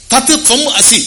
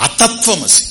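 First: తత్ త్వం అసి in three separate words, high; word-by-word split. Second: అతత్వమసి run together as one word, pitched high; joined reading. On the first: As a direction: break తత్ త్వం అసి apart to explain it. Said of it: "ఆయన నువ్వు అయ్యున్నావు". (తత్ త్వం అసి పదం పదం విడదీసి) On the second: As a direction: say అతత్వమసి without any breaks. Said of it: "అతత్వమసి అని కూడా లాగారు". (అతత్వమసి ఒకే పదంగా కలిపి) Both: Shown as a demonstration.

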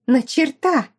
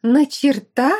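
First: High, loud hysterical cry; hysterical shout. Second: Loud high demand; hysterical question. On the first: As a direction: stress on черта, hysterical. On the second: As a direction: stress on на, rising. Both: Acted. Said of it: "истерила Аделла".

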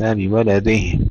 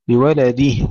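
First: بولده with the kasra of the د swallowed; weak kasra dal. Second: بولده with a clear kasra on the د; full kasra dal. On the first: Teacher shows the swallowed kasra, wrong. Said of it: "وليس بولده". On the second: Teacher models a complete kasra, correct. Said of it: "تحقيق كسرة الدال". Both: Shown as a demonstration.

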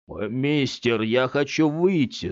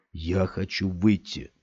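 First: Put-on boy's voice, cross and afraid; boy pleading with stranger; childlike, half angry half scared. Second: Said in the usual way. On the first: A narrator's reading. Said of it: "голосом ребёнка, полусердитым, полуиспуганным".

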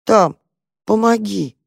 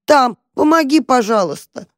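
First: Meek plea. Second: High, loud desperate begging; trapped cat yelling to the mouse for help; loud plea. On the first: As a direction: ask timidly after confessing. Quiet guilty plea. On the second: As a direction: shout for help. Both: Acted.

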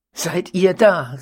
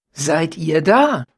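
First: Slow, louder, the joyful greeting repeated; innigster Freude. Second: Slow, louder, a mock joyful greeting; innigster Freude. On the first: Baronin ruft den Mördern erneut gespielt freudig zu. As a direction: call it out gladly once more. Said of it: "rief sie noch einmal". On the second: Baronin begrüßt die Mörder mit gespielter Freude. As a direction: greet the intruders as if long awaited. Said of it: "rief sie mit dem Tone der innigsten Freude". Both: A narrator's reading.

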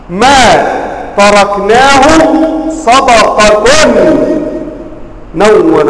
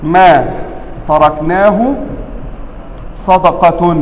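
First: صدقة read with a raised, stressed ending; صدقةٌ بالتنوين والرفع; with nunation. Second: ما تركناه صدقة in even tone; قراءة عادية; plain recitation. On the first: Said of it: "هنا بماذا؟ بالرفع". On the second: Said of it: "منونة أم ليست منونة؟". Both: Shown as a demonstration.

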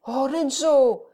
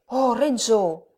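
First: Higher, slow plaintive cry; understated sobbing appeal, stretched out; through sobs. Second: A mild, drawn-out cry of the name; understated cry to Renzo; exclamation. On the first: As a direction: draw the name out in distress. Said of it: "avec peine à travers ses sanglots". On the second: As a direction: exclaim it with restrained alarm. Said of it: "s'écria Lucia". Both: A narrator's reading.

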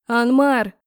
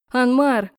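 First: Loud shout of a name; shouted name, louder; shouting his name again. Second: Loud shout of a name; shouted name, louder; shouting his name. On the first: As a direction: call out loudly again to stop him. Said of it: "снова закричала". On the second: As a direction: call out loudly to stop him. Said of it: "снова закричала я". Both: A narrator's reading.

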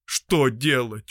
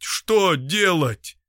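First: Said in the usual way. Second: Higher, very slow, drawn-out plea; despairing repeat. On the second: Acted. Doctor repeats his question, slow and despairing. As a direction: stretch it out in helpless despair.

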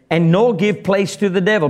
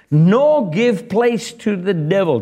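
First: Said in the usual way. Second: Nor drawn out slowly and leaned on; slow, stressed NOR. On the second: Shown as a demonstration. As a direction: linger on Nor, give each word weight. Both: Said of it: "it goes on to say".

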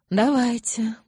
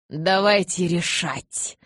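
First: Higher, loud but uninvolved repeat; indifferent echo. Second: Loud, drawn-out eager assent; ready agreement. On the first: Elder repeating his fellow's assent, indifferent. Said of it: "равнодушно повторил Марк". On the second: Elder eagerly answering the call to confer, loud readiness. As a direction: respond readily, stretching the words. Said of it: "с готовностью откликнулся Кай". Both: A narrator's reading.

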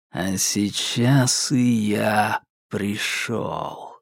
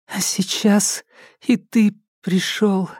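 First: Low, very slow, dragged-out menace; like a tape played at half speed. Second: High, timid echo of his words; obedient repeat. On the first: Psycho corrects Alka in a low dragging voice. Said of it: "низким, будто заторможенным голосом". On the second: Alka obediently repeats the psycho's words, high and timid. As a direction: repeat it meekly, afraid to err. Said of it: "послушно повторила она". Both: A narrator's reading.

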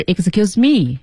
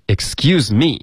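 First: "excuse me" in a mistaken intonation, as a counterexample; wrong tune. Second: "Excuse me" higher, rising at the end on me; correct tune. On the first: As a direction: mimic the wrong melody on "excuse me". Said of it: "它的音调不是". (模仿错误音调说“excuse me”) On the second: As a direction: lift "Excuse me" into a questioning rise. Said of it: "它是". (“Excuse me”音调提高，句尾上扬) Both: Shown as a demonstration.

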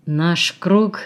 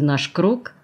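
First: Understated wry, bitter repetition; bitter smirk. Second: Lightly mocking question, ending on a rise. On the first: He repeats her phrase back, with a bitter smirk. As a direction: echo it slowly with muted bitterness. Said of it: "повторил он с горькой усмешкой". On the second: Alla asks about bringing the girl in, mockingly. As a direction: toss it out as a teasing question. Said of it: "Голос её зазвучал насмешливо". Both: A narrator's reading.

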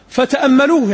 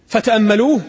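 First: Astonished. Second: Said in the usual way. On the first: Shown as a demonstration. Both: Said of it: "يعني مستغربين".

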